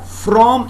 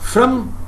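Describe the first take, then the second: First: The vowel is said full and clear. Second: The vowel is reduced to a schwa. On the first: "from is a strong form" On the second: "From is a weak form"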